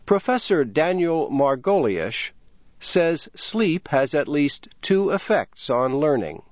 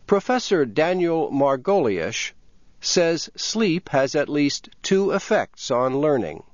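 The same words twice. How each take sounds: The two takes are said the same way.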